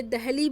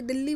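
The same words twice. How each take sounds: First: दहली said as dah-lee, breathy h between the vowels; old name Dahli. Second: दिल्ली said dil-lee, doubled l and no h; modern name Delhi. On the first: Teacher shows students the older name, saying दहली with a clear h. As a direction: pronounce दहली with a clear h in the middle. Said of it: "फिर ये दहली बोला जाने लगा". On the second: Teacher gives students the modern name, saying दिल्ली with a doubled l. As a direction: pronounce दिल्ली with a long held l. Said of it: "फिर ये दिल्ली बोला जाने लगा". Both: Shown as a demonstration.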